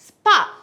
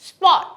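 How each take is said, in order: First: The vowel is an open, unrounded 'ah' sound. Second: The vowel is a rounded 'o' sound. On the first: "Americans will say স্পট" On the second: "তারা কিন্তু স্পটটাকে ও এর মতে করে বলে"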